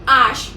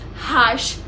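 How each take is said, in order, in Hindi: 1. यह शब्द स्वर से शुरू होता है, 'h' ध्वनि नहीं है। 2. यह शब्द साफ़ सुनाई देने वाली 'h' ध्वनि से शुरू होता है। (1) "H is always silent in French" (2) "not harsh"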